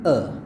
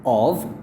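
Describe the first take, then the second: First: The word is reduced to a weak vowel. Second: The word is said fully with a v sound. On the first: "menjadi a" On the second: "dia ubah dari of"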